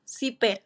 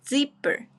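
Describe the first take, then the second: First: The first sound is a hissing s. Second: The first sound is a buzzing z. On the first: The speaker calls it wrong. "which is not the correct pronunciation" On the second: The speaker calls it right. "The correct pronunciation is zipper"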